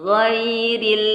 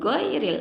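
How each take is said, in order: First: It starts with a throaty gh sound. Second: It starts with a hard g sound. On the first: The speaker calls it right. "Gha harus gha" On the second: The speaker calls it wrong. "Nggak boleh go ya, ... bukan huruf g ya"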